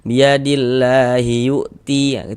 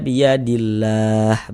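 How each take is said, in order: First: The final vowel is kept and runs into the next word. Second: The word stops clipped on a silent final h. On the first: The reader does not stop at this word. "kita wasolkan biadillahi yu'ti" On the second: The reader stops at this word. "berhenti berwakaf di huruf H ... dibaca biadillah begitu"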